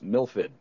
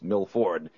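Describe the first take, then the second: First: The r is dropped, sounding like Milfid. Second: The r is clearly pronounced in the name. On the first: This is how locals around the city say it. "out here in the Boston area, it's Milford" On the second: This is the standard way to say it. "but it's Milford"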